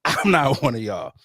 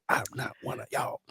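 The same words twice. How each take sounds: First: Full-voiced, smug declaration; proud boast. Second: Breathy, unvoiced sneer of superiority; snooty hushed aside. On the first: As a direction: say it proudly, chest out. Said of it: "wearing that badge proud". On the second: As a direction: whisper it like a stuck-up local. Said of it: "Boogie be out there like".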